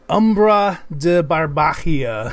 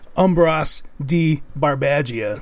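First: It is said in an Italian-style accent. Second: It is said in an American accent.

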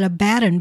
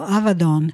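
First: The consonant after the first vowel is b. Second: The consonant after the first vowel is v. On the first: The speaker calls it wrong. "We often pronounce that Abaddon" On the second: The speaker calls it right. "it's actually pronounced a V, and it is Don ending, so Avadon"

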